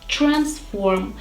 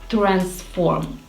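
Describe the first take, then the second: First: The tr at the start sounds like ch. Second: The tr at the start is a plain t-r. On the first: The speaker calls it right. "I should pronounce this word transform" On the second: The speaker calls it wrong. "instead of my version transform"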